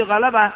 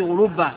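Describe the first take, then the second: First: Three light open "a" vowels in غلبة; voweled variant. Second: Rounded vowels and a doubled ba in غلبة; doubled consonant variant. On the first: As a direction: say غلبة as "gha-la-ba". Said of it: "أي غلبة بالتحريك". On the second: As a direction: say غلبة as "ghu-lub-ba". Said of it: "فعلة بالتشديد". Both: Shown as a demonstration.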